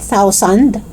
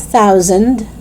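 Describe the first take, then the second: First: "thousand" as "tousand" with full last vowel; hard start and clear "sand" in "thousand"; mispronunciation. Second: Tongue out to start "thousand"; TH sound. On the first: Teacher showing learners the mistake, "thousand" as "tou-sand". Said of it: "It's not thousand". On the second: Teacher correcting learners, "thousand" with clear TH. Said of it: "It's thousand". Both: Shown as a demonstration.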